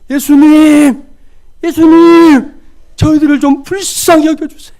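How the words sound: It sounds earnest and desperate.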